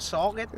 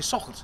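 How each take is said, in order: First: It is said in an Australian accent. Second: It is said in a New Zealand accent.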